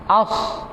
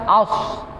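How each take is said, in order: Both takes have the same delivery.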